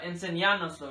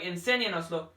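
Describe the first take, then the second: First: The stress falls on the fourth syllable. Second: The stress falls on the second syllable. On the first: The speaker calls it wrong. "not enseñánoslo" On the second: The speaker calls it right. "it'll sound like enséñanoslo"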